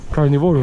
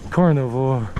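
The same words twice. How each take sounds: First: Carnivoro with a Spanish rolled r and o ending; Spanish pronunciation. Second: Said in the usual way. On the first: Shown as a demonstration. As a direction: say Carnivoro as in Spanish, kar-nee-VO-ro. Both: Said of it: "It means meat eater".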